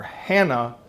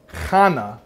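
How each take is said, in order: First: Said in the usual way. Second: Hannah with a throaty ch, like Channah; Hebrew Hannah. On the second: Shown as a demonstration. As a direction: say Hannah the Hebrew way, guttural ch at the start. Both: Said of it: "or Hannah".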